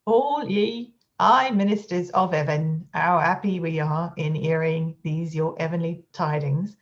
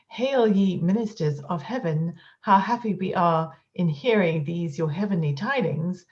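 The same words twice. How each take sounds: First: "All ye, aye, ministers of 'eaven" with no H at all; Cockney-style H dropping; H dropped. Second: "Hail", "heaven", "happy" with a clear breathy H; full aspirates, triumphant read; with the H sounded. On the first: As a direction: drop every H: "'ow 'appy", "'eavenly". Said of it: "without an aspirate thus". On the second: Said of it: "If anyone were to pronounce the following sentence". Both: Shown as a demonstration.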